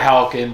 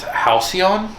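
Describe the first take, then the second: First: The name is said as hal-kin. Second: The name is said as hal-see-on. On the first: This is the altered pronunciation chosen for the name. "we just changed it to Halkin to, to better fit, and it just flows a lot easier" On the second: This is the standard dictionary pronunciation. "if you look at the English dictionary, ... It's Halcyon"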